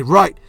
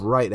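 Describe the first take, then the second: First: Loud, raised-pitch acknowledgement; urgent shouted reply. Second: Said in the usual way. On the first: Acted. Bakugo answering Deku's call for rescue, urgent shout. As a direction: snap back loudly, ready to go.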